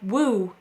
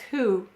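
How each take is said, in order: First: The word starts with a w sound. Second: The word starts with an h sound. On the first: This is how the spelling suggests it is said. The speaker calls it wrong. "it looks like woo" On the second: This is how the word is actually said. The speaker calls it right. "but it says who"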